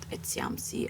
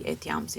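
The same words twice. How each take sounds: First: The 'ti' is pronounced with a ts sound. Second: The 'ti' is pronounced with a plain t sound. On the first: This is the church Latin pronunciation. "not etiamsi, as a, per, perhaps I would say" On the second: This is the older classical Latin pronunciation. "they say etiamsi"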